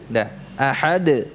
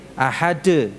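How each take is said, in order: First: Ahad slowly, dal bounced; correct dal, slowly. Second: Ahad closed with a plain D. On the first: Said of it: "itu dal yang benar". (ahad pelan dengan dal memantul) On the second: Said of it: "jadi bukan dengan D". (ahad dengan huruf D) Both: Shown as a demonstration.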